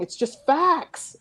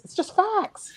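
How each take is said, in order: First: Slow, punched facts; slowly insisting to the panel on facts; slow and deliberate. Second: Much higher exasperated repeat of facts; pitched up, exasperated with flat earthers; high emphatic repeat. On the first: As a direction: spell it out word by word. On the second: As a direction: push it up in exasperation. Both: Real, not acted.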